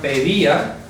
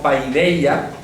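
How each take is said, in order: First: The first syllable has a plain 'e' vowel. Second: The first syllable has an 'ai' diphthong. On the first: This is the way it is pronounced. "Se pronuncia pedía" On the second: Some people say it this way. "algunos pronunciarán como paideia"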